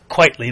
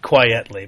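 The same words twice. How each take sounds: First: The name begins like the word 'quite'. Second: The name begins like the word 'quiet'. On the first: The speaker calls it right. "It's quietly, like quite frankly" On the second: The speaker calls it wrong. "not quietly"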